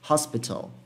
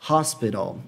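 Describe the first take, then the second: First: The middle t sound is clearly pronounced. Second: The middle t sound is soft and reduced. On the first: "Algumas pronúncias mais puxadas para o T, como por exemplo a pronúncia britânica" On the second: "A pronúncia dessa palavra aqui é hospital"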